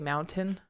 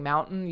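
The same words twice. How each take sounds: First: The middle T is clearly and fully released. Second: The middle T is swallowed, not fully released. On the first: "enunciates all of his T's" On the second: "instead of saying mountain"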